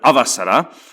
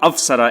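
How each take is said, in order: First: A short vowel is said between the v and s. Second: No vowel is said between the v and s. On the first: The speaker calls it right. "instead of avasara" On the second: The speaker calls it wrong. "they have avsara instead of avasara"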